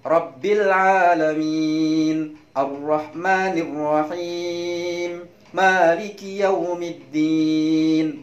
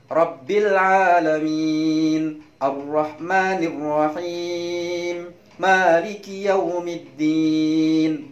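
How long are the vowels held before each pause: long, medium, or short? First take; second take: medium; medium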